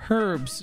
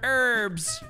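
First: The word begins with an audible h sound. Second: The word begins without any h sound. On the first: "you might say" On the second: "as you Americans like to say, even though there's a H"

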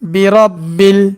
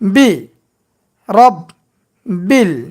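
First: The syllables are said joined without breaks. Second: The syllables are said separately with breaks. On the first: "একসঙ্গে উচ্চারণ করব।" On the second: "এবার ভাঙ্গা ভাঙ্গা উচ্চারণ হবে।"

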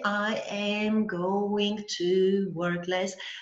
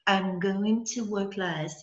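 First: Every word is said in full, unreduced. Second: The word "to" is reduced to a short u sound. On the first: The speaker calls it wrong. "Никой няма да каже" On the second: The speaker calls it right. "се редуцира в звука U"

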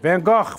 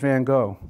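First: It has a throaty, coughing Flemish-style sound. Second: It is said plainly, without throaty sounds.

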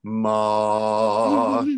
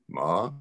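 First: The pitch stays high and level throughout. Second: The pitch rises upward like a question. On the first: "like that, right? Just one pitch" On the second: "the question tone. Like you're asking a question"

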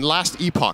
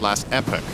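First: Epoch is said with a non-American pronunciation. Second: Epoch is said with an American pronunciation. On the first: The speaker calls it wrong. "That's not how you say it" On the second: The speaker calls it right. "I need to do my American uh, pronunciation of words"

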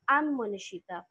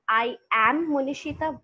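First: 'I am' is reduced to one short syllable. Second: Both words of 'I am' are fully pronounced. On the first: "we call these weak forms" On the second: "Look at the difference"

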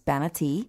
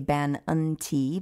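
First: The word is said quickly, syllables run together. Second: The word is said slowly, each syllable clear. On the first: "when you say it fast" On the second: "We'll slow that down a little bit and say"

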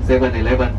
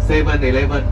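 The two takes are said the same way.

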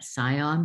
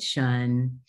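First: The suffix sounds like 'sigh-on'. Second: The suffix sounds like 'shun'. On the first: The speaker calls it wrong. "It is not" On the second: The speaker calls it right.

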